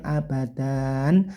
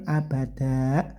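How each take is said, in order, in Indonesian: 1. Kata ini berakhir dengan bunyi n. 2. Kata ini berakhir dengan hamzah. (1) "nggak pakai n lagi ya, bukan abadan" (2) "kayak ada huruf hamzahnya tidak ya"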